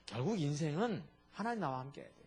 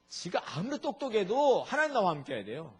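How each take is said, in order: First: Said in the usual way. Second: Louder, stress on 하나님 as the climax; 하나님 hit hard, pushed louder and higher; emphatic repeat. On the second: Real, not acted. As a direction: drive home 하나님 with more force. Preacher repeats his key line, building.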